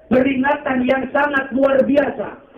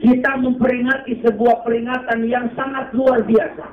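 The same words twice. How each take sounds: First: Slow, high, leaning on luar; emphatic repeat. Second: Said in the usual way. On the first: Shown as a demonstration. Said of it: "repeated for emphasis". (tekanan dina luar biasa)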